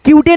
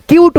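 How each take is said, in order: First: क्यूटे said as kyoo-tay, sounding the final e; क्यूटे with a mistaken final vowel; wrong pronunciation. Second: क्यूट said as kyoot with a silent final e; क्यूट, no vowel after the t; correct pronunciation. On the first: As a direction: add an extra e sound after क्यूटे. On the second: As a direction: end क्यूट cleanly on the t. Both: Shown as a demonstration. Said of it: "क्यूटे नहीं ना पढ़ेंगे".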